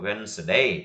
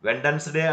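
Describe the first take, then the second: First: The d sound is silent in the word. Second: The d sound is pronounced in the word. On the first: The speaker calls it right. "ಇಲ್ಲಿ D ಏನಾಗ್ತತಿ, silent ಆಗ್ತಾ ಇದೆ" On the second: The speaker calls it wrong. "ಅನ್ನಬಾರ್ದು"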